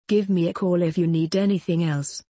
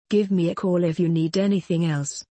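No difference in how they are said.

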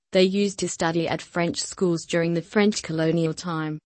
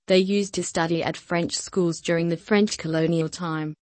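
Both takes have the same delivery.

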